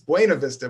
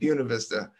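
First: The name gets its standard Spanish-style pronunciation. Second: The name gets the local town's own pronunciation. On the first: This is how the name properly goes. "it's Buena Vista" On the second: This is how the residents say it. "but the town calls it Buena Vista"

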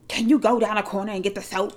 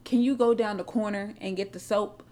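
First: The request sounds rude and demanding. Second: The request sounds friendly and polite. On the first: The listener feels offended by the request. The speaker calls it wrong. "It's going to sound like, well, hold on, bitch" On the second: The listener happily agrees to do it. The speaker calls it right. "You're going to be like, okay, let me go down the corner"

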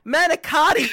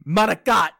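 First: The final vowel is fully pronounced. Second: The final vowel is dropped, Italian style. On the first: It is the ordinary everyday way of saying it. The speaker calls it wrong. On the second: It is how the Italian roommates said it. The speaker calls it right.

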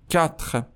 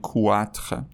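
First: The word starts with a plain 'k' sound. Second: The word starts with a 'kw' sound. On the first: The speaker calls it right. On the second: The speaker calls it wrong.

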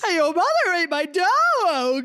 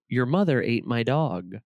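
First: The line is acted out like in the movie. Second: The line is read out in a plain voice.

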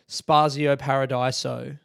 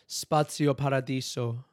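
First: It is said flatly, without a rolled R. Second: It is said with an Italian accent. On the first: "not roll the R at all and just say it like a dead shit" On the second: "Do you hit the accent?"

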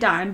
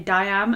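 First: The word is said as one syllable. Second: The word is said as two syllables. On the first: The speaker calls it right. "I say dime" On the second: The speaker calls it wrong. "other people say diam"

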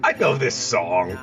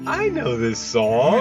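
First: It is said flatly, without enthusiasm. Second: It is said lovingly, with enthusiasm.

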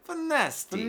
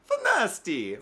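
First: It is said with a French accent. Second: It is said in a Mario-style Italian accent.

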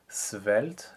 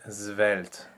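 First: The word begins with an unvoiced S sound. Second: The word begins with a voiced Z sound. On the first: "with an S, unvoiced" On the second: "With a Z phonetically"

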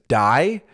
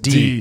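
First: The vowel is pronounced as in 'eye'. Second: The vowel is pronounced as in 'see'. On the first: The speaker calls it right. "that says die" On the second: The speaker calls it wrong. "I think it says D"

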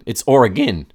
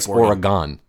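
First: It uses the pronunciation heard from Oregon locals. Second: It uses the pronunciation heard from non-locals. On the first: The speaker sounds like someone from the state. "if you're from Oregon" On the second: The speaker sounds like someone from outside the state. "But if you're outside of that area"

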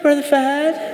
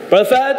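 First: The voice is soft and sweet. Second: The voice is firm and businesslike. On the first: The speaker calls it wrong. "Don't do that soft voice" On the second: The speaker calls it right. "So have the stern voice. I like to call it like the business voice"

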